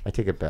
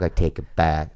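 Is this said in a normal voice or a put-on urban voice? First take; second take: normal; urban voice. First: It is said in a normal voice. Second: It is said in a put-on urban voice.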